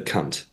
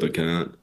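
First: The final T is hard and clearly released. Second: The final T is soft and barely released.

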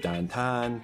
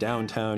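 First: It is said in a Pittsburgh accent. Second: It is said in a standard American accent. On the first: "you say downtown" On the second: "instead of saying downtown"

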